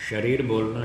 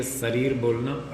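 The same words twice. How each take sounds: First: शरीर begun with "sh", as "sharir"; correct pronunciation. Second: शरीर begun with "s", as "sarir"; mispronunciation. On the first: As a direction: give शरीर its hushing first sound, "sh". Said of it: "शुद्ध है". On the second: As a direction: say शरीर as "sarir", not hushing the first sound. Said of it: "अशुद्ध है". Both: Shown as a demonstration.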